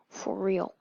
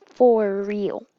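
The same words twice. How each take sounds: First: Said in the usual way. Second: "For real" stretched out on FOR; louder, lengthened "For real"; emphatic repeat. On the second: Retold or imitated. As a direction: draw out "For" with firm force.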